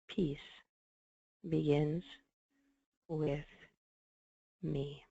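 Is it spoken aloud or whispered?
aloud. It is spoken aloud in a normal voice.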